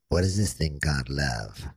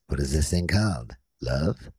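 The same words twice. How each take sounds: First: It flows as one question without a break. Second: It breaks before love, asked separately.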